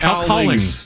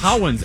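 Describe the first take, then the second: First: The surname is said like Collings. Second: The surname is said like Cowens. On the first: The speaker calls it right. "Said like Collings" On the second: The speaker calls it wrong. "he pronounced it wrong"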